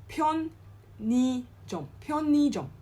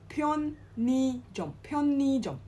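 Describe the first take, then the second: The two takes are said the same way.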